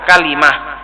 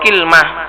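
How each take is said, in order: First: It has an a vowel, then an i vowel. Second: It opens with an i vowel, no middle vowel. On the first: This is the form used by the people of Hijaz. "bi fathil kaf wa kasril lam" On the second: This is the form used by the Tamim tribe. "bi kasril kafi wa sukunil lam"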